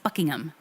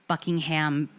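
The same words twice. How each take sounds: First: The final syllable is reduced to a weak 'um'. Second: The final syllable is a full 'ham'. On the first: The speaker calls it right. "You don't pronounce the ham" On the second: The speaker calls it wrong. "we also say um"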